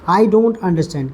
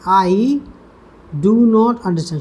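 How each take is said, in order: First: The words do and not merge into one syllable. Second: The words do and not are said separately.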